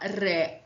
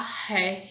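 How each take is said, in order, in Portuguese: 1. O R é feito com a língua vibrando. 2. O R é aspirado, sem vibração da língua. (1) "um som que treme a língua" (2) "esse som do ha"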